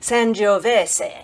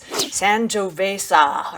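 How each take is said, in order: First: It is said with an Italian accent. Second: It is said with an American accent. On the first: The speaker calls it right. "I listened to an Italian person say it" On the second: The speaker calls it wrong. "it's the American pronunciation"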